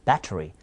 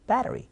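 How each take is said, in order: First: "battery" with a clear T; careful "battery", hard T in the middle. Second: "battery" with a tapped T; "battery" with the T softened to a flap; flapped T. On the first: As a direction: say "battery" as BA-tuh-ree, T released. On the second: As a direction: say "battery" as BA-duh-ree. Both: Shown as a demonstration. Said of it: "빨라지면 아이템".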